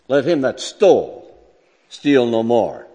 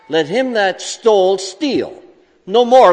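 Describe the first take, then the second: First: The pause comes after 'more', not after 'steal'. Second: The pause comes after 'steal', before 'no more'.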